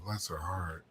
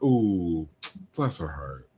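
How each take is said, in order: First: It sounds sincere and sympathetic. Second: It sounds sarcastic and mocking.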